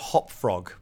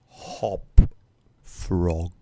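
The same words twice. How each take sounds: First: It is said in a normal voice. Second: It is said in a deep, gloomy voice.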